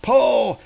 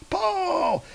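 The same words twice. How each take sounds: First: A higher bellowed command; giant's yell. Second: Very high straining cry of Pull; the last Pull thrown way up in a squeal; shrill final yell. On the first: Grunthrock urges his crew to pull, higher bellow. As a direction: bark it like a boss giant. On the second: Grunthrock's final order to pull, shrill squeal. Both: Acted. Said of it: "He's like".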